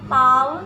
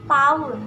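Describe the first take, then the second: Both takes have the same delivery.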